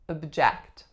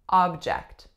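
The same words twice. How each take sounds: First: The stress is on the second syllable. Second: The stress is on the first syllable. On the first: It is a verb meaning to protest. "our first syllable becomes schwa, ob, and then our second syllable remains e" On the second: It is a noun meaning a thing. "The strongest syllable would be a on the first"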